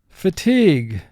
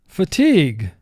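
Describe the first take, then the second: The two takes are said the same way.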